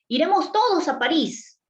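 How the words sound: It is said as an excited exclamation.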